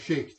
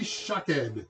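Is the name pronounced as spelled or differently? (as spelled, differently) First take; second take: as spelled; differently. First: The name is pronounced the way it's spelled. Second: The name is pronounced unlike its spelling.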